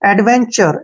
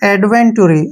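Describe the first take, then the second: First: The middle sound is a 'ch' sound. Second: The middle sound is a plain 't' plus vowel. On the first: The speaker calls it right. "टी यू का उच्चारण चे के रूप में होगा" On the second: The speaker calls it wrong. "इसको अक्सर क्या पढ़ते हैं ... तो ये गलत तरीका है"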